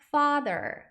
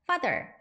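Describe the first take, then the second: First: The first vowel is drawn out long. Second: The first vowel is said short. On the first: The speaker calls it right. "이게 길게 발음을 하는구나" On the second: The speaker calls it wrong. "father 아니라"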